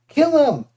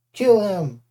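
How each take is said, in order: First: High, loud savage command; yelled. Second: Loud insistent command; shouted. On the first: Clarice urges Percy to finish him, loud high yell. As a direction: scream it at him to strike. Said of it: "Clarice yelled". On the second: Clarice insists Percy kill the Cyclops, loud shout. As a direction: demand the kill again, loud. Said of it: "Clarice shouted". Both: Acted.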